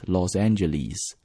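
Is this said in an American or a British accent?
British. It is said with a British accent. "But if you're speaking British accent"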